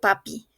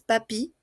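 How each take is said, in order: First: It is pronounced like the Spanish word. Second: It is pronounced like the French word. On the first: The speaker calls it wrong. "No digo papi" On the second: The speaker calls it right. "es papi"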